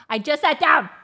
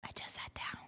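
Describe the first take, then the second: First: High-pitched protest; exasperated complaint. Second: Barely audible, voiceless repeat; whispered complaint. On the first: Owner to the barking dog after settling, exasperated. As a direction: whine it out in disbelief. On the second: Owner repeating the protest to the dog, whispered. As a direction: breathe it out under your voice. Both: Real, not acted.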